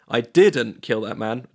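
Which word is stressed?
didn't. The stress is on "didn't".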